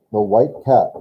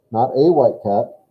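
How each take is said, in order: First: Said in the usual way. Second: "a" singled out with weight; stress on a. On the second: Shown as a demonstration. Correcting a student, stress on "a". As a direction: lean on the little word "a".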